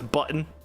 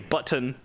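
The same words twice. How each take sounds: First: The middle T is dropped. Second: The middle T is clearly pronounced. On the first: "but it's button. B U N. But there's an apostrophe in there" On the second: "people say button"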